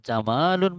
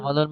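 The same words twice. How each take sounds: First: The vowel after the m is long. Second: The vowel after the m is short. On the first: It means beautiful. "যদি মিমের পরে আমরা টান দিই, তাহলে তখন অর্থ হয় সুন্দর" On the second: It means camel. "জামালুন মানে উট"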